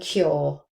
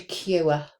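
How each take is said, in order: First: The vowel is one steady or sound. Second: The vowel glides from oo toward a schwa. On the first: "I would say those with this or sound, that monophthong" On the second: "if you use this vowel, you would say"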